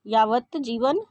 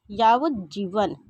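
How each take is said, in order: First: यावत जीवन with a t, "yavat jeevan"; यावत ending on t before जीवन; wrong pronunciation. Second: यावत जीवन slowed, the t voiced into "j"; slow यावत जीवन, t merging into j; correct pronunciation. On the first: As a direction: say यावत जीवन as two words with a crisp t. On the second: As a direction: draw out यावत जीवन as "yaavaj-jeevan". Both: Shown as a demonstration. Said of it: "शुद्ध और अशुद्ध रूप में".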